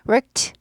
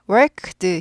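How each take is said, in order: First: The word ends in a voiceless t sound. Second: The word ends in a voiced d sound. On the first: The speaker calls it right. "worked 이렇게 돼요" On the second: The speaker calls it wrong. "worked 힘들고요"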